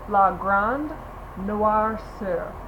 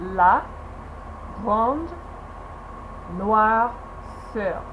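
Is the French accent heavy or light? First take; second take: light; heavy. First: It is said with a lighter, toned-down French accent. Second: It is said slowly with a heavy French accent. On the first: "you can tone it down" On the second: "said very slowly, that's a really like heavy French accent"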